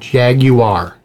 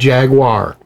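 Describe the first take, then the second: First: It is said with a British pronunciation. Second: It is said with an American pronunciation. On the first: The speaker calls it right. "It's called Jaguar" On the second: The speaker calls it wrong. "not Jaguar"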